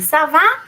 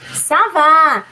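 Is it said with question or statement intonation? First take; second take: question; statement. First: It is said with a questioning intonation. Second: It is said with an answering, statement intonation. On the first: It asks whether things are fine. "você dá a entonação de pergunta" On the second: It answers that things are fine. "dá a entonação de resposta"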